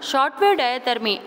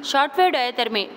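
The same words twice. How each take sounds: The two takes are said the same way.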